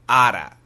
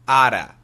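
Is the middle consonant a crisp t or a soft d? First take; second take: soft d; soft d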